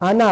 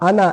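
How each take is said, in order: No difference in how they are said.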